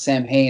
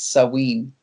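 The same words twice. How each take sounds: First: The middle consonant is an M sound. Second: The middle consonant is a W sound. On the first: The speaker calls it wrong. "it's not pronounced Samhain" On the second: The speaker calls it right. "it's Samhain. ... the M H makes a W sound in Gaelic"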